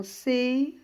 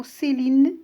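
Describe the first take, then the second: First: "Céline" broken into cé, li, ne with pauses; split into syllables. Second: Said in the usual way. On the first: Shown as a demonstration. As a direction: say "Céline" syllable by syllable, voicing the final e: cé... li... ne. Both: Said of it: "On va le découper en syllabes".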